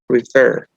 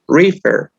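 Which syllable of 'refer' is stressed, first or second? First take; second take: second; first. First: The stress is on the second syllable. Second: The stress is on the first syllable. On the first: The speaker calls it right. "la mayor fuerza de voz cae en la última sílaba" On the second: The speaker calls it wrong. "porque no decimos refer. Uh -uh"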